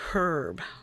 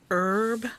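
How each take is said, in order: First: The word begins with an audible h sound. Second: The word begins without any h sound.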